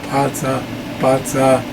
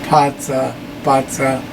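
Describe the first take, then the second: Both takes have the same delivery.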